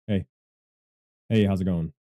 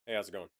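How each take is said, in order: First: Louder mic-test greeting; punchy, loud hello to test levels; raised voice. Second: Said in the usual way. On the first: Shown as a demonstration. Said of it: "Whenever I raise my voice". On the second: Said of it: "whenever I talk normally".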